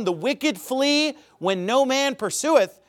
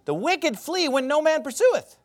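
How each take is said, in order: First: "The wicked flee when no man pursueth" read slowly with the weight on "no"; slow scripture reading. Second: "The wicked flee when no man pursueth" said again, pitched higher and rising to "pursueth"; raised repeat. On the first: Preacher reads Proverbs to the congregation, slow and solemn. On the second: Preacher repeats the verse to drive it home, pitched higher. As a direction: lift the repeat higher for emphasis. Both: Shown as a demonstration. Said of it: "Proverbs twenty-eight, verse one".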